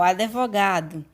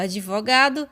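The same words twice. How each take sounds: First: An extra i vowel splits the d and v. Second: The d and v join with no vowel between. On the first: This is a spoken regional variant. "forma variante oral" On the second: This is the standard form. "a forma culta"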